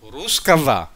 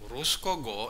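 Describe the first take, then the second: First: The consonant before the last vowel is v. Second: The consonant before the last vowel is g. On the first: "Pero ang pronounce v" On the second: "Bakit ge?"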